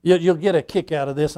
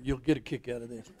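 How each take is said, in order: First: Said in the usual way. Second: Softer, faster muttered repeat; quick quiet aside. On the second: Real, not acted. Pastor teasing the congregation, quick soft aside. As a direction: toss it off under your breath, quickly.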